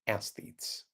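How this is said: It is said the American way, like athletes.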